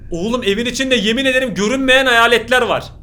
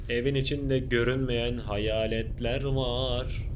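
First: Louder, urgent and wide-eyed; excited. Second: Slow, softer ghost-story voice; spooky hush. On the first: Real, not acted. Youtuber to viewers, spooked and loud. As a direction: blurt it out, spooked and thrilled. Reacting to invisible ghosts. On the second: Pretend. Youtuber teasing viewers, slow and hushed. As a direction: lean in and tell it like a campfire tale.

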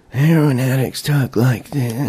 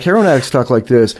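First: Slow, soft slurred junkie voice; heroin addict voice. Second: Said in the usual way. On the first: Shown as a demonstration. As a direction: drag it out like a strung-out addict. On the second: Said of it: "Ron Paul doesn't talk like a heroin addict".

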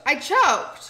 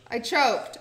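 First: I choked, louder and hammed up; louder dramatic admission. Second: Said in the usual way. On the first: Shown as a demonstration. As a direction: proclaim I choked loudly. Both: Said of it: "You choked".

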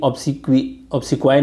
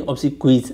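First: "obsequi" ending on an open vowel, no s; singular without final s. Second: "obsequies" closed with a final z sound; plural with final s. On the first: Teacher showing students the wrong form, singular without final s. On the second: Teacher correcting to the plural, final s sounded. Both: Shown as a demonstration. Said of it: "नहीं".

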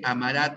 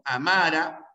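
First: "amará" as a-ma-RÁ; stress on the last syllable. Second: "Amara" as a-MA-ra; stress on the middle syllable. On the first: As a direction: land hard on the final syllable of "amará". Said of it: "tiempo futuro". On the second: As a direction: lean on the second syllable of "Amara". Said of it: "tiempo presente". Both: Shown as a demonstration.

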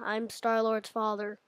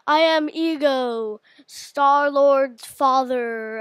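First: Said in the usual way. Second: Ego voice. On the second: Pretend. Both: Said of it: "imitate some Marvel villains' voices".

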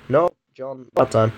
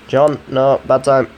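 First: Said in the usual way. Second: Louder, sharper second warning; firmer, louder. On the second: Real, not acted. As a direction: raise your voice and cut it off. Telling device again, firmer.

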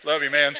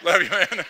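First: Loud, laughing through it. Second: Higher and louder, stress on love, rising at the end; affectionate call. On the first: Loud laughing affection toward teased Jerry. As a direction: toss it off while laughing. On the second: Loud fond call to Jerry after teasing him. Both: Real, not acted.

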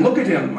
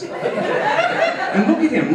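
First: Said in the usual way. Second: Mock pity. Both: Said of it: "mock referee lecturing".

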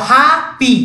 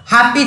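First: ହାପି split into two beats, "haa - pi"; teacher separating both syllables of ହାପି; syllable-by-syllable demo. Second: Said in the usual way. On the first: Shown as a demonstration. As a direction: break ହାପି after a long "haa", then say "pi". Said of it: "ମଝିରେ ବନ୍ଦ ହେଲା ନାହିଁ". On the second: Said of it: "ଦେଖ ହାପି".

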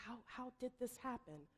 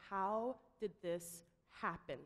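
First: Softer, searching under the breath; frantic inner echo. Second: Slow, heavy and grave; grave question. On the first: The speaker asks himself in his head, softly frantic. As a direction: echo the question to yourself, searching for answers. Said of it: "Frantically trying to search my brain". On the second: Tom confronts the room after the call, slow and grave. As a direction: let the question hang over the room. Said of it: "and says". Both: Retold or imitated.

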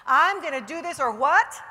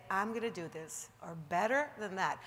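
First: Loud, rising rally cry; a confident challenge to the room; declare it loudly. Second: Said in the usual way. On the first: Shown as a demonstration. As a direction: shout it like you mean it. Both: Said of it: "You gotta say it like you mean it".

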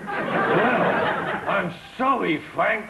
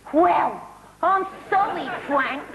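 First: Laughing weak try at Peggy; half-hearted Peggy Mitchell; Peggy Mitchell attempt. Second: Brassy Cockney landlady; Peggy Mitchell impression. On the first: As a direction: copy the Cockney line through a laugh. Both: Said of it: "a key phrase with her".

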